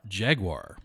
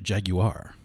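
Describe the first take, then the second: First: It is said with an American pronunciation. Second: It is said with a British pronunciation.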